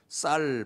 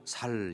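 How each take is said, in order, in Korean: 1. 첫 자음은 된소리 s 소리예요. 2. 첫 자음은 예사소리 s 소리예요. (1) "쌀 발음 잘 안 된다고" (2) "살 이렇게 발음한다고"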